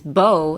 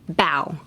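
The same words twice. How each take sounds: First: It is said with the vowel of the ribbon word. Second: It is said with the vowel of bowing your head. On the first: It names a looped ribbon. "it means like a bow in your ribbon" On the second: It means lowering the head. "in this case, you pronounce it bow"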